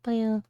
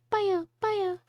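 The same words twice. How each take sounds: First: Said in the usual way. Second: Higher squeaky baya babble; Kirby noise. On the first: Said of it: "I can't do the, the Kirby voice". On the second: Shown as a demonstration. Trying out the Kirby voice, high babble. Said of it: "Just making Kirby noises".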